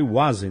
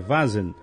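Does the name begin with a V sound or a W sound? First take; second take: W sound; V sound. First: The name begins with a W sound. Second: The name begins with a V sound. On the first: This is how the name was always said before. The speaker calls it wrong. "eu sempre falei Wazen" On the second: This is the name's actual pronunciation. The speaker calls it right. "mas é Vazen"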